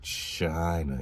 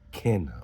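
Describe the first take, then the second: First: The word begins with a soft ch sound. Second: The word begins with a hard k sound. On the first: The speaker calls it wrong. "we don't say China" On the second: The speaker calls it right. "we're talking a hard K k k"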